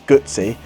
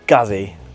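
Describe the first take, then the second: First: The middle consonant is a ts sound. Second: The middle consonant is a plain z sound. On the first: The speaker calls it right. "it's Gootsy" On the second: The speaker calls it wrong. "people always pronounce Guzzy Guzzy, and it's not"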